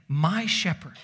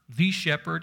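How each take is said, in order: First: "My" stressed, "shepherd" falling away. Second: "the" said as a full THEE; stress on "the". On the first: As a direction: claim it by leaning on "My". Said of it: "But David is saying". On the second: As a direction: set "the" apart, pronounced thee. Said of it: "Not the shepherd". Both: Shown as a demonstration.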